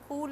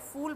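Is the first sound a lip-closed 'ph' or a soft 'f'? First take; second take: ph; soft f. First: The first sound is a lip-closed Hindi 'ph'. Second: The first sound is a soft English 'f'. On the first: It means a flower. The speaker calls it wrong. "फूल नहीं। फूल मतलब flower हो जाता है" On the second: It means a foolish person. The speaker calls it right. "फूल बोल रही हूं"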